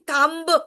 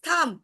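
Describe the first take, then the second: First: The final b sound is pronounced. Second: The final b sound is silent. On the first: The speaker calls it wrong. "we are not saying thumb" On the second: The speaker calls it right. "whenever B comes at the end, it gets silent"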